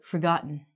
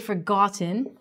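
First: The T and the vowel after it are dropped. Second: The T and the vowel after it are fully pronounced. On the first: The speaker calls it right. "we say forgotten" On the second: The speaker calls it wrong. "We don't say forgotten"

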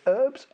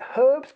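First: The word begins with a silent h. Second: The word begins with a pronounced h sound. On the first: "you call it" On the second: "we call it herbs because it's got a H on it"

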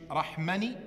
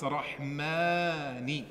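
First: The vowel after the m is short. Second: The vowel after the m is long. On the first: The speaker calls it wrong. "Du sagst hier nicht Rahmani" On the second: The speaker calls it right. "bitte das Mim verlängern. ... sondern du sagst Rahmani"

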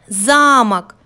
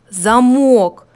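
First: The stress is on the first syllable. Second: The stress is on the second syllable. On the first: "выделяя первый слог" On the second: "давайте выделим другой слог"

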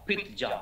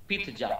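The two takes are said the same way.

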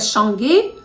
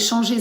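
First: The middle consonant is a hard G sound. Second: The middle consonant is a soft ZH sound. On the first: The speaker calls it wrong. "Тому би читалося «шанге»" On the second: The speaker calls it right. "давайте «шанже» зробимо"

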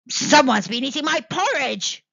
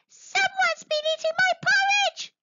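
First: It is growled in a deep voice. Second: It is squeaked in a high voice.

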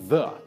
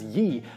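First: The word begins with a 'th' sound. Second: The word begins with a 'y' sound. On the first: The speaker calls it right. "the pronunciation is actually just the" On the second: The speaker calls it wrong. "pronounced as ye"

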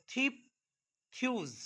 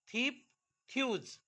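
The two takes are said the same way.

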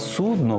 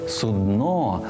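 First: The stress is on the first syllable. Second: The stress is on the second syllable. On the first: The speaker calls it wrong. "Слова «судно» в українській мові немає і ніколи не було" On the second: The speaker calls it right. "судно з наголосом на «о»"

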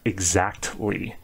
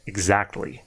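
First: The T sound is strongly exaggerated. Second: The T sound is said in a natural way. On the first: "So I'm over exaggerating it" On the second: "to be a little bit more natural"

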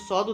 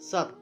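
First: The word ends with a d sound. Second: The word ends with a t sound. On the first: The speaker calls it wrong. "যদি আমরা সদ বলে ফেলি কিন্তু সদ উচ্চারণটা হবে না" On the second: The speaker calls it right. "ততের মতো উচ্চারণ করবো, অর্থাৎ উচ্চারণটা হবে এইভাবে সৎ"

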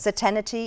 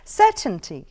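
First: It has four syllables, with an extra vowel. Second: It has three syllables, with no extra vowel. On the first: The speaker calls it wrong. "Certainty is what it's mispronounced as" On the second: The speaker calls it right. "the correct pronunciation would be certainty"

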